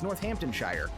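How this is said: It is said in a Midwestern American accent. "I don't say it that way because I'm from the Midwest"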